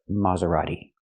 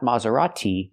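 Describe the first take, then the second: First: The T is said as a fast D. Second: The T is said as a clear T. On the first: The speaker calls it right. "a fast D" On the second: The speaker calls it wrong. "the T is not pronounced like t"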